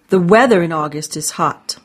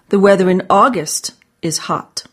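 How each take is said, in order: First: The stress is on the word weather. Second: The stress is on the word August.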